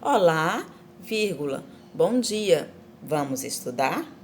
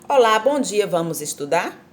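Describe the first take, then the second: First: There is a clear pause after Olá. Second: It runs on with no pause after Olá.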